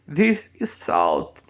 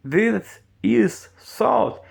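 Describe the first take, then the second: First: "This" with the tongue between the teeth, slow; slow pronunciation model; th demo. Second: "This is salt" very slow, higher, rising on "salt"; slow high teacher model; th demo higher. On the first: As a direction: press the tongue out on "This". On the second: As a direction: exaggerate "This" slowly. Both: Shown as a demonstration. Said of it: "Olha a questão do this".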